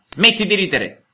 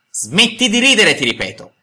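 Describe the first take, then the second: First: Higher, slow, annoyed command; a vexed old man telling off a brat; irritated. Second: Threatening shout. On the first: Geppetto orders the laughing mouth to stop, irritated and slow. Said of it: "disse Geppetto impermalito". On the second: Geppetto repeats the order to the puppet, a menacing shout. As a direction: bellow the warning as a last threat. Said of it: "urlò con voce minacciosa". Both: A narrator's reading.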